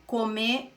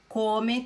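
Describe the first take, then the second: First: "come" with the final syllable stressed, co-MÉ; stress on last syllable. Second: "come" with the first syllable stressed, CO-me. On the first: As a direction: land on the ME in "come". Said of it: "perde o acento". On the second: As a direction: punch the CO in "come". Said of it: "Aqui a sílaba tônica é co". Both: Shown as a demonstration.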